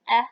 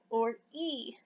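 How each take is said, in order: First: A short vowel, as in 'bed'. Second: A long vowel, like the letter's name 'ee'.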